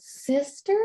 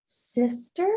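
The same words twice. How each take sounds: First: Put-on higher, curious little-kid voice; toddler's question. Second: Small child's wondering voice, lightly voiced; toddler's question. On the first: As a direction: echo the word like a two-year-old. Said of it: "Just one word, and this". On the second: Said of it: "she just goes".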